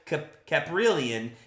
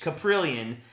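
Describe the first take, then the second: First: The first syllable is a full 'cap' sound. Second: The first syllable is a reduced 'kuh' sound. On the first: The speaker calls it wrong. "some people called it Cap- Caprillion" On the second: The speaker calls it right. "I think it's K, like K U H"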